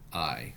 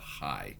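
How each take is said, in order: First: It starts directly on the vowel, without h. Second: It starts with an audible h before the vowel. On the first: "so we know this would be I" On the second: "be pronounced as a high because it's a rough breathing mark"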